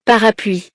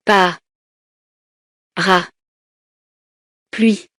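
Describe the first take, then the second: First: Said in the usual way. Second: "Pa. Ra. Pluie." in three isolated syllables with long pauses. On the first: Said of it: "Je dis les mots". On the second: Shown as a demonstration. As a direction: count it out: "Pa", stop, "Ra", stop, "Pluie". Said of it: "Je frappe les syllabes". («Pa. Ra. Pluie.» découpé syllabe par syllabe)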